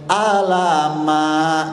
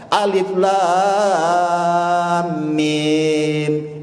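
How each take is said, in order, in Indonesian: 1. Huruf-huruf itu disambung menjadi satu kata. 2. Setiap huruf dibaca terpisah. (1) "katanya begitu" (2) "itu seharusnya"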